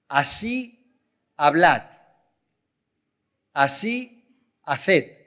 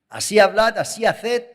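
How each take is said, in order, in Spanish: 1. Se lee a un ritmo más lento. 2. Se lee a un ritmo más rápido. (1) "Lo leo" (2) "Lo leo un poco más rápido"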